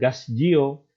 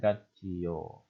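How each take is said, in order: First: The first syllable ends with an s sound. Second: The first syllable ends with a t sound. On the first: The speaker calls it wrong. "bukan gasjio" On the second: The speaker calls it right. "melainkan gatjio"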